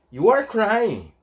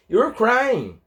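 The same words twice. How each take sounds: First: YOU ARE as two separate words, slow; full form. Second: YOU'RE merged into one syllable; slow demo, YOU and ARE fused as YOU'RE; contracted form. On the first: Teacher gives the example sentence, uncontracted YOU ARE. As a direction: give ARE its whole sound after YOU. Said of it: "pra abreviar o are". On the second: Teacher shows how are gets abbreviated, contracted YOU'RE. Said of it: "Vai ficar you're crying". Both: Shown as a demonstration.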